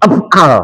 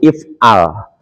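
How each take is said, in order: First: The word begins with an a vowel. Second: The word begins with an i vowel. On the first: The speaker calls it wrong. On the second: The speaker calls it right. "Kapan dibaca i? Kalau dia berharokat kasroh atau berharokat fat"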